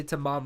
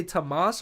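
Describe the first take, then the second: First: "Tamam" ending in an M sound; Tamam pronunciation. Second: "Tamas" ending in an S sound; Thomas-like pronunciation. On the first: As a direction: say "Tamam" stressed on the second syllable, closing on M. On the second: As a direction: say "Tamas" with a final hissed S, not M. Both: Shown as a demonstration. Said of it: "what did I say?".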